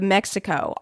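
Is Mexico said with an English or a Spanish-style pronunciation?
English. It is said with an English pronunciation. "instead of Mexico"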